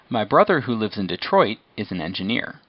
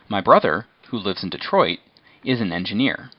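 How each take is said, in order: First: It is said without pauses around the clause. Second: There are short pauses around 'who lives in Detroit'.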